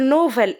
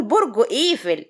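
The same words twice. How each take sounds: First: نوفل with an N and O at the start; mock the slip, نوفل in place of إيفل; mispronounced Eiffel. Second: إيفل opening on a long EE; correct pronunciation. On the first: Cook quotes critics of her twisted tongue, mispronounced نوفل. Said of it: "ما بتعرفش تقول نوفل". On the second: Shown as a demonstration. Cook proves she can say it, correctly pronounced إيفل. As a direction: say برج إيفل with EE-vel, no N. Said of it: "ده أنا بقول برج إيفل".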